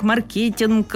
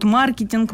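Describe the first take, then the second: First: Маркетинг with stress on the second syllable, марКЕтинг. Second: Маркетинг with stress on the first syllable, МА-ркетинг. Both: Shown as a demonstration. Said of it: "наоборот".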